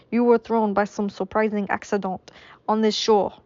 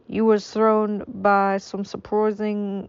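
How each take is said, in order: First: Put-on a lighter French accent at normal pace. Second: Slow, drawn-out mock French accent. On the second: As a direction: stretch the words in a clumsy French accent. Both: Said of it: "I don't know what this accent is".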